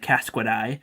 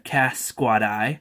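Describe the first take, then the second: First: The name is said quickly, run together. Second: The name is said slowly, parts kept apart.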